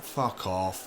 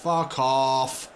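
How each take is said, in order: First: Said in the usual way. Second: Louder angry yell; angry shout. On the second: Real, not acted. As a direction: shout it this time. Opponent scores, repeated curse.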